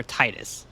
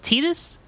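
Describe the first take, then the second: First: "Titus" said with a long i, TIE-tus; pronunciation TIE-tus. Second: "Titus" said with a long ee, TEE-dus; pronunciation TEE-dus. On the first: Streamer asks which name is right, pronouncing "Titus" TIE-tus. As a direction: say "Titus" to start like the word tie. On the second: Streamer asks which name is right, pronouncing "Titus" TEE-dus. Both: Shown as a demonstration. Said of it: "is it Titus or Titus".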